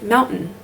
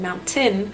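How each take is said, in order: First: The middle T is dropped, jumped over. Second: The middle T is clearly pronounced. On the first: The speaker calls it wrong. "a lot of Utahns say mountain" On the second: The speaker calls it right. "instead of saying mountain"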